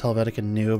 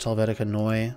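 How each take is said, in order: First: The second word sounds like English 'new'. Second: The second word sounds like 'noy-uh'. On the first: The speaker calls it wrong. "some people pronounce as Helvetica New" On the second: The speaker calls it right. "it's actually pronounced Helvetica Neue"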